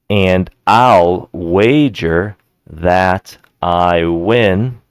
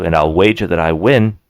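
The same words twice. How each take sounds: First: It is read slowly. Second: It is read at normal speed.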